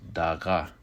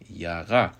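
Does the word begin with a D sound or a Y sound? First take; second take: D sound; Y sound. First: The word begins with a D sound. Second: The word begins with a Y sound. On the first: "it may be pronounced with a D" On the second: "often pronounced with a Y"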